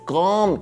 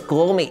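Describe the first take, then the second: First: The word is said with its English pronunciation. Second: The word is read letter by letter, as spelled. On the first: The speaker calls it right. "es come" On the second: The speaker calls it wrong. "No es come"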